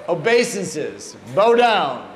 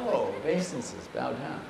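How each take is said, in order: First: Put-on slow start, then loud Bengali-accented command. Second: Low, soft dawning understanding; quiet realisation. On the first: Guru sitting back from blown fire, insistent Bengali accent. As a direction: imitate a Bengali-accented order, punching the last words. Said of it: "his Bengali accent". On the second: Retold or imitated. Initiates finally understanding the guru's order, low and soft. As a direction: drop it right down as the penny drops.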